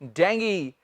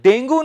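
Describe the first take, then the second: First: The word ends in an 'ee' sound. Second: The word ends in an 'oo' sound. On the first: The speaker calls it right. "इसे English में बोलते हैं डेंगी" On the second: The speaker calls it wrong. "डेंगू नहीं"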